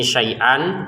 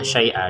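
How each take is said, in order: First: The word ends with a short -an sound. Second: The word ends with a lengthened a, no n. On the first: "ini syai'an" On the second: "dipanjangkan dua harokat"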